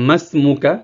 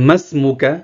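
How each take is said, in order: Both takes have the same delivery.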